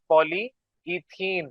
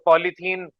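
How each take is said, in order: First: The parts are said separately as two pieces. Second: The parts are run together into one word. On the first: "अदरवाइज" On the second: "ये जल्दी जल्दी बोलते हैं"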